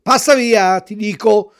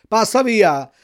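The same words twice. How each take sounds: First: Loud, higher angry shout at the dog; the fisherman yelling the dog away again; louder threatening shout. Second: Loud, threatening bark at the dog; threatening shout. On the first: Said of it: "gli ripeté il pescatore". (urlo minaccioso più forte) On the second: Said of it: "gli gridò il pescatore minacciandolo". (grido minaccioso) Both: A narrator's reading.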